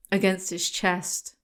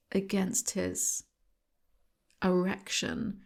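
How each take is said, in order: First: Said in the usual way. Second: Much softer, slow, pause before the last word; hushed reveal. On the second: Acted. Host teasing the listeners with a hushed comic reveal. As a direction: drop almost to a whisper and hold back the word.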